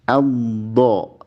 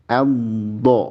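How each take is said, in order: No difference in how they are said.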